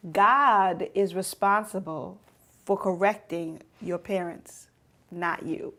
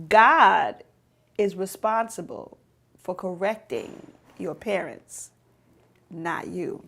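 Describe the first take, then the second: First: Said in the usual way. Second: God hit alone, much louder, then a pause; stress on God. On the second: Shown as a demonstration. Preacher repeating to teens, "God" loud and separate. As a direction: punch out "God" by itself before the rest. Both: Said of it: "I'ma say it again".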